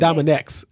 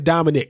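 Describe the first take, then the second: First: The name ends in a ks sound. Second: The name ends in a plain k sound. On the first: It is the habitual way the speaker has always said it. "But I always said Dominex. I always said it that way for some reason" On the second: It is the proper way, like the first name. "like it's Dominic, like a person's name"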